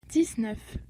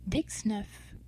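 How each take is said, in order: First: Said in the usual way. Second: "dix-neuf" with ks in "dix"; demonstrated pronunciation. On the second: Shown as a demonstration. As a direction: say "dix-neuf" like "dicks-nuff". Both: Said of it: "This is pronounced".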